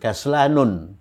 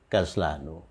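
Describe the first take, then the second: First: The word ends with an added n sound. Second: The word ends on a vowel, without n. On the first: The speaker calls it wrong. "bukan kaslanun" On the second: The speaker calls it right. "tidak bertanwin"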